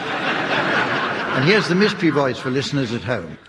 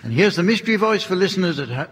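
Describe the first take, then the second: First: It is said with calm, lower energy. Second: It is said with lots of enthusiasm.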